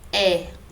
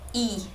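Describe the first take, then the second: First: The vowel is an open, stressed 'eh' sound. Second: The vowel is a weak, unstressed 'ee' sound. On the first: "quando tem acento, eu pronuncio é" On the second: "Quando não tem, eu pronuncio i"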